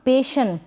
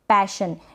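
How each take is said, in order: First: The first vowel sounds like the vowel in 'pay'. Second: The first vowel sounds like the vowel in 'pat'. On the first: The speaker calls it wrong. "ऐसे नहीं पढ़ेंगे इसको, पेशन नहीं" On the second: The speaker calls it right. "गलत उच्चारण होगा पैशन"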